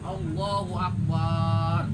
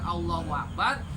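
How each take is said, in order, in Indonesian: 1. Vokal sebelum huruf b itu dipanjangkan. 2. Vokal sebelum huruf b itu pendek. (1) "Ditambahkan ada alif sebelum ba" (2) "Biasanya kita membacakan Allahu Akbar"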